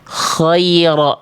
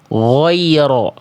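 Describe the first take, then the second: First: The first sound is airy and voiceless, like kh. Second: The first sound is made with pushed-out rounded lips. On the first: "dia keluar nafas" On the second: "Mulutnya pakai muncung-muncung"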